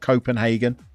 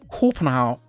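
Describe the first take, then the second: First: The name is said with an English pronunciation. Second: The name is said with a Danish pronunciation. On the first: The speaker calls it wrong. "Not Copenhagen" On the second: The speaker calls it right. "That's what the Danes call Copenhagen"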